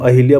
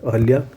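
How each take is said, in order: First: An 'i' vowel follows the h sound. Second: A short 'a' vowel follows the h sound. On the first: The speaker calls it wrong. "हम अहिल्या बोलते हैं" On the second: The speaker calls it right. "अहल्या होता है"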